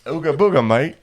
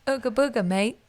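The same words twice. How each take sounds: First: Loud, higher hammed-up British accent. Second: Light mock British accent, cheeky. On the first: Performing on request for friend, hammed-up British accent. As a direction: belt it out as a cartoon cockney. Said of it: "please say "Ooga Booga" with a British accent". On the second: Showing friend how it sounds, mock British accent. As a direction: toss off Ooga Booga in a jokey British accent. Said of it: "with a British accent".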